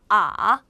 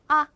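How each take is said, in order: First: The pitch dips low and then rises. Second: It is short and light, without a contour. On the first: "꺾어서 발음을 해주시면 돼요" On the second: "가볍게 아, 아 요렇게 해주시면 경성이 됩니다"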